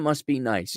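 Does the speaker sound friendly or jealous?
friendly. It sounds friendly and not jealous. The speaker is happy for the other person.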